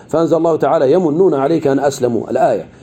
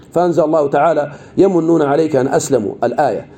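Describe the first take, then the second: The two takes are said the same way.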